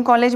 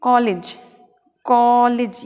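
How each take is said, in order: First: कॉलेज ending in "layj"; कॉलेज with long second vowel; common pronunciation. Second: कॉलेज ending in short "lij"; कॉलेज, long AW then short I; corrected pronunciation. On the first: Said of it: "अपन कॉलेज बोलते हैं". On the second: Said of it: "इसका उच्चारण होता है". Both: Shown as a demonstration.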